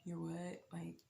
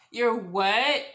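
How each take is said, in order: First: Very soft, barely voiced question; stunned hush. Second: Loud, rising shocked question; incredulous outcry. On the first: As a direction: say it under your breath, floored. Stunned reaction to pregnancy news. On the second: Retold or imitated. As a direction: exclaim it in open disbelief. Louder repeat of stunned reaction.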